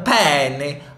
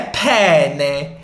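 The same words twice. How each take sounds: First: It is said with an American accent. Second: It is said with an Italian accent. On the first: The speaker calls it wrong. "que sotaque feio, né? Do americano pra falar italiano" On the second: The speaker calls it right. "É penne"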